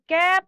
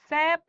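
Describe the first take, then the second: First: Hard k opening on cap; hard C option. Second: Sap, cap begun with an s; soft s opening on sap; soft C option. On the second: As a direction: offer sap, opening on an s sound. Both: Shown as a demonstration. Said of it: "কে হবে না স হবে?".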